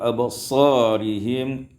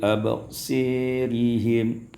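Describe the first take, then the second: First: The vowel after s is an open a. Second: The vowel after s is tilted toward e.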